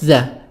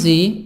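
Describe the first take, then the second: First: The vowel is a short weak 'uh' sound. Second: The vowel is a long 'ee' sound. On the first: The next word starts with a consonant. "If there is no vowel, it's the" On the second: The next word starts with a vowel. "So it becomes the if there is vowel"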